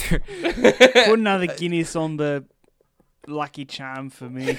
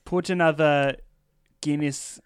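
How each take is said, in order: First: Mock Irish accent, laughing. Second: Mock Irish accent. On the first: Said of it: "No, keep going". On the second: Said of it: "Yep, that's it. No, keep going".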